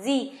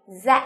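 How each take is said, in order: First: Z pronounced "zee", American way. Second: Z pronounced "zed", British way. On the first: Teacher gives students the other reading, American Z as "zee". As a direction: say Z as "zee", open long vowel ending. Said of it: "tiếng Anh Mỹ họ sẽ đọc là gì". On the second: Teacher models the letter for students, British Z as "zed". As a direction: say Z as "zed", with a final d. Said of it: "Nếu như là người Anh Anh, họ sẽ đọc là Z". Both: Shown as a demonstration.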